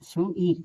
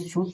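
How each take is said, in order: First: The word is two syllables with a separate i. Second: The word is one syllable with no separate i. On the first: The speaker calls it wrong. "नहीं कि शू शू ईट" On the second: The speaker calls it right. "इसे शूट पढ़ेंगे"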